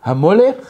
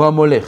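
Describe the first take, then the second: First: Hamolech with the weight held on the first syllable, rising; stress on the start. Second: Hamolech with the weight on the last syllable, falling; stress on the end. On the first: Teacher to class, holding the start of Hamolech. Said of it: "Écoute bien". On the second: Teacher to class, stressing the end of Hamolech. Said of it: "au début du mot ou à la fin du mot?". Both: Shown as a demonstration.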